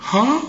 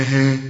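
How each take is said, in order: First: ها said high and full; the wrong thick ها; heavy ha. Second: ها kept light; thin, clear ها. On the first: Teacher mimics a heavy ha. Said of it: "إذا قلت ها ... فخمت". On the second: Teacher gives the light ha. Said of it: "أنا عاوز ها". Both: Shown as a demonstration.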